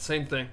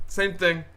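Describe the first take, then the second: First: Said in the usual way. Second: Punchy louder second take; louder, higher repeat. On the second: Shown as a demonstration. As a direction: say it again with more punch.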